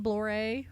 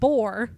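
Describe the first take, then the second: First: The word is said with an L sound. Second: The word is said without an L sound.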